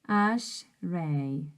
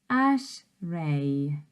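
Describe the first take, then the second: No difference in how they are said.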